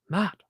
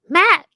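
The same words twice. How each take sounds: First: It is said in the speaker's normal voice. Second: It is said in a put-on character voice.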